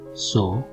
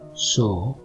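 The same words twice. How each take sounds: First: The first consonant sounds like English s. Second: The first consonant sounds like English s.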